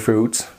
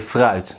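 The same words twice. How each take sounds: First: The vowel is a plain English oo sound. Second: The vowel is the Dutch ui diphthong. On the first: The speaker calls it wrong. "so don't say fruit" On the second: The speaker calls it right. "say fruit. The U I is ui"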